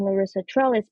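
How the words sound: The name is said with English pronunciation. She is speaking English, so listeners can understand and spell it. "if I'm speaking English"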